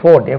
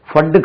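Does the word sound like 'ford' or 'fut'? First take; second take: ford; fut. First: The vowel is long, sounding like 'ford'. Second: The vowel is short, sounding like 'fut'. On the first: The speaker calls it right. "அது ஃபோர்ட்" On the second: The speaker calls it wrong. "ஃபட்டு car போகுது அப்படின்னு சொல்லக்கூடாது"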